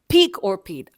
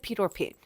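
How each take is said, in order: First: The first word sounds like 'peak'. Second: The first word sounds like 'pit'. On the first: The speaker calls it right. "se dice un peak or pit" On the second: The speaker calls it wrong. "No se dice pit or pit"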